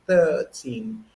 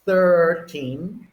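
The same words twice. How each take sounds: First: "thirteen" with the R dropped; British "thirteen", open vowel and no R. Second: "thirteen" with a strong, drawn-out R; American "thirteen", R fully sounded. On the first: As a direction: say "thirteen" as "thuh-teen", crisp T. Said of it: "there's no R practically". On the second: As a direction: curl the R hard in "thirteen". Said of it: "check the R between the American". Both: Shown as a demonstration.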